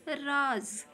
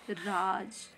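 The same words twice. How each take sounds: First: राज said with a z sound; राज as raaz, stressed and louder. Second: राज with a plain ज, no nukta; plain j in raj. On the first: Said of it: "ज के नीचे नुक्ता लगा दें". (नुक्ते वाला राज़, ज़ की ध्वनि) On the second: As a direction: say राज with a hard j. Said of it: "राज का अर्थ होता है राज्य". (बिना नुक्ते के राज) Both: Shown as a demonstration.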